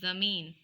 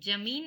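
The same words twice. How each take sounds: First: It begins with a z sound. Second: It begins with a plain j sound. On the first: The speaker calls it right. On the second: The speaker calls it wrong.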